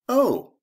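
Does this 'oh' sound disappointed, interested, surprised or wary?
interested. The 'oh' sounds interested. The speaker finds the news interesting. "that's interesting"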